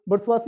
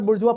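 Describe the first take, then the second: First: The word ends in a 'wazi' sound. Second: The word ends in a short 'wa' sound. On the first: The speaker calls it right. "बुर्सवासी इसका शुद्ध उच्चारण है।" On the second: The speaker calls it wrong. "ये इसको कई बार बुर्जुआ पढ़ते हैं लोग।"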